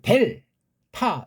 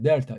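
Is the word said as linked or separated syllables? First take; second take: separated; linked. First: The two syllables are split with a clean break. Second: The syllables flow together with a curled tongue. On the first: This is the Korean way of saying it. "우린 델, 타 이게 우리식인데" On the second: This is the original foreign way of saying it. "이게 혀를 굴리고 꼬부리게 돼 있어요"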